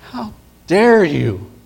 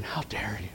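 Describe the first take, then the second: First: Higher, slow outraged cry; outraged rebuke. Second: Whispered, breathless fury; hissed rebuke. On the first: King crying out at the servant in slow outrage. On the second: King whispering fury at the unforgiving servant. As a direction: hiss it like a king holding back rage. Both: Acted.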